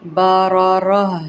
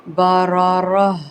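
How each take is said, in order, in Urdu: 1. یہ لفظ خاموش h آواز پر ختم ہوتا ہے۔ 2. یہ لفظ خاموش h آواز پر ختم ہوتا ہے۔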